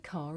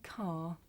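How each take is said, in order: First: An r sound links it to the next word. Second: The word ends without an r sound. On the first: "you will hear this sound at the end of a word if the following word begins with a vowel" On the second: "In the first sentence, this is my car, you don't hear the"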